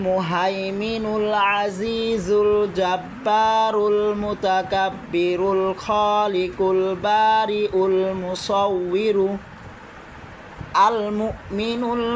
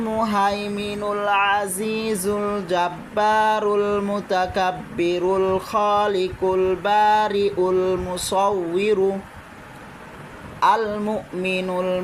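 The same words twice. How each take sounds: No difference in how they are said.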